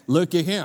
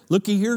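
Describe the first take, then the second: First: It is said in a country accent. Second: It is said in a Minnesota accent.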